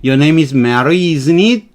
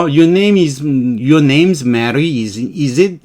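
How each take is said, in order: First: "isn't it?" rising; unsure rising tag. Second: "is it?" said falling and sure; confident falling tag. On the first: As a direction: lift "isn't it?" up. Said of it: "하고 올린 거죠". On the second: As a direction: drop "is it?" down. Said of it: "하강조는 확실한 거죠". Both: Shown as a demonstration.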